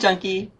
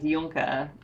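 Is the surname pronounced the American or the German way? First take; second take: American; German. First: The surname is said the American way. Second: The surname is said the German way.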